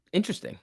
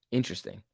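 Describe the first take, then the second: First: Intrigued interesting. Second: Said in the usual way. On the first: Real, not acted. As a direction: say Interesting with a lifted, curious note. Repeats word, intrigued then flat.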